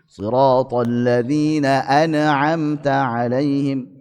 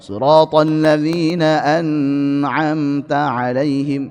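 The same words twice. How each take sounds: First: The n sound ends with a bounce. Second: The nasal n sound is held long. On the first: "jangan dipantulkan" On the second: "jangan ditambah aliran suaranya"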